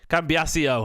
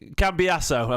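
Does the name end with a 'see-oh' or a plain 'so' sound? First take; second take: see-oh; so. First: The name ends with a 'see-oh' sound. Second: The name ends with a plain 'so' sound. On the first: The speaker calls it wrong. "I'm saying Cio, aren't I?" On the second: The speaker calls it right. "it's Cambiasso"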